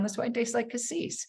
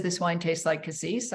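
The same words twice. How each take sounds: First: "This wine tastes like cassis" lifted higher, rising at the end; dutiful parroting. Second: Said in the usual way. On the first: Retold or imitated. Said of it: "I wrote down". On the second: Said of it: "Someone else is smarter than me".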